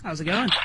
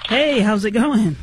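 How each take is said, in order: First: It is said flatly, with little energy. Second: It is said enthusiastically, with more energy.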